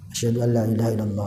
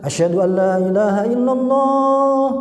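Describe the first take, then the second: First: The phrase is said softly and quietly. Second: The phrase is said loudly and forcefully. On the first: "dengan pelan" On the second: "baru menggunakan kencang"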